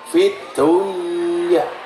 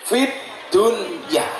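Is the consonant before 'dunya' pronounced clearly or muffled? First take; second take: muffled; clear. First: The consonant before dunya is blurred and concealed. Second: The consonant before dunya is articulated distinctly. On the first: Something is uncertain, between there and not there. The speaker calls it wrong. "Kalau dibaca ikhfa" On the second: Worldly matters must be clear. The speaker calls it right. "bahasanya jelas idhar"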